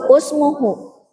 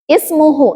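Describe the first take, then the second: First: The first vowel is a u sound. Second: The first vowel is an i sound. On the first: The speaker calls it wrong. "Secara uh, rumus tadi harusnya apa?" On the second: The speaker calls it right. "dibacanya pakai kasroh"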